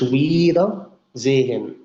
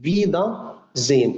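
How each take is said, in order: First: The word begins with a w sound. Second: The word begins with a v sound. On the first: The speaker calls it wrong. "مش ويدا زين" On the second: The speaker calls it right. "اسمها كلمه اسمها فيدا زين"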